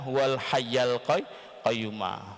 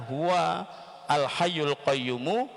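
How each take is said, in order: First: The word endings carry an a vowel. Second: The word endings carry a u vowel. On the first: "Kalau membaca fathah" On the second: "dibaca dhamma atau dibaca roh rofa, yaitu al qayyumu"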